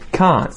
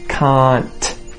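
First: The final T is held back and not released. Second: The final T is clearly released with a burst of air. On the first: "You'll hear them say can't" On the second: "you won't hear people say can't"

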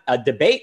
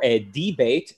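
First: It is said in the speaker's plain accent. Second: It is said in a put-on Greek accent.

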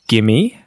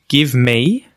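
First: The words merge quickly into one word. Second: Both words are said fully and separately. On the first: "when speaking really quickly, we say give me becomes gimme" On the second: "would always be written correctly as give me"

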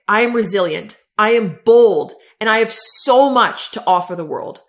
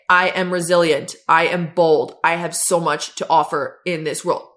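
First: It is said with strong conviction. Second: It is said flatly, without conviction.

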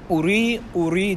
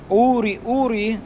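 First: The stress falls on the last syllable. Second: The stress falls on the first syllable.

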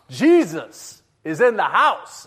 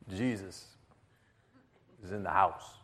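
First: It is said very loudly. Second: It is said quietly.

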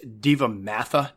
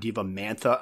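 First: There is no extra n sound inside. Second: An extra n sound is inserted inside. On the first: The speaker calls it right. "It's Divamantha" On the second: The speaker calls it wrong. "not Divamantha. ... I don't know why I put the N in there"

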